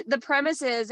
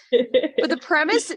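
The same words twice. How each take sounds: First: Said in the usual way. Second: "premise" drawn out, slower; stress on premise. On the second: Real, not acted. Restarting her point about Extreme Ownership, emphatic. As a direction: lean into "premise" to hold the floor.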